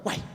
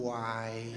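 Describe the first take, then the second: First: "Uai." clipped short and quick. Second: "Uai." drawn out slow and long, much softer. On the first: Mineiro offered twenty thousand reais, quick short "Uai.". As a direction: fire off "Uai." fast as an obvious yes. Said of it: "Rápido, curto e rápido". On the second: Mineiro stalling before refusing a favour, slow drawn-out "Uai.". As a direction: stretch "Uai." out slowly as a reluctant no. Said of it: "ele é lento, longo". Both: Shown as a demonstration.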